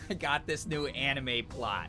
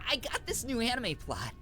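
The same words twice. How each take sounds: First: It is said in an ordinary speaking voice. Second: It is said in a put-on anime-hero voice.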